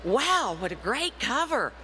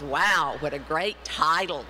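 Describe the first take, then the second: First: Impressed wow. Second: Lower wow. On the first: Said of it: "the first thing they say is". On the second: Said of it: "the second thing they say is". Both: Retold or imitated.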